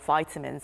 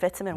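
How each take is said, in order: First: It is said with an American pronunciation. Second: It is said with a British pronunciation.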